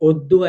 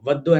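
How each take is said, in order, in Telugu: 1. ఈ పదం 'o' శబ్దంతో మొదలవుతుంది. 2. ఈ పదం 'va' శబ్దంతో మొదలవుతుంది. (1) "మనం పలికేటప్పుడు మాత్రం ఒద్దు అని ఓ అనేది వేరేలా పలుకుతాం" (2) "వద్దు అని అనం"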